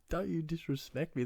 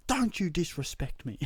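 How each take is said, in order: First: High-pitched echo of his own yell, at normal volume; mock your own outraged line; incredulous imitation of himself, pitched up; self-mocking repeat. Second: High, loud mock-outraged yell; hammed-up, indignant shout at a cat; retold yell. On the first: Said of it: "What, what is that?". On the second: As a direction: re-enact a furious telling-off, pitched way up. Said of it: "I think I yelled at".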